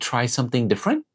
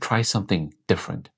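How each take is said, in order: First: The pitch rises at the end. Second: The pitch falls at the end. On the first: The speaker sounds uncertain. The speaker calls it wrong. "You see that inward upward inflection?" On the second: The speaker sounds confident. The speaker calls it right. "Drop your tone slightly at the end"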